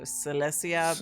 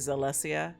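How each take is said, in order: First: The name begins with an S sound. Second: The name begins with a Z sound. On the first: The speaker calls it wrong. "I want to say it as an S sound" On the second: The speaker calls it right. "but it's probably Zalesia hat"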